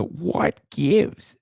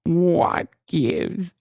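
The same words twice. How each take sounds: First: Drawn-out Midwestern what gives; slow, savoring the phrase; mimicking the catchphrase. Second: Higher Midwestern what gives, rising; mimicking the catchphrase. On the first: Host mimics candidate's catchphrase, slow Midwestern. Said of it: "she's growing on me". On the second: Host repeats the catchphrase in her accent. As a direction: tease the candidate's line. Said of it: "The what gives?".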